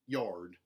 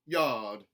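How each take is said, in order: First: The R sound is hard and strong. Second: The R sound is dropped. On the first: "mountain, where the R sounds are retained, but they are hardened" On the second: "a general Southern dropped R"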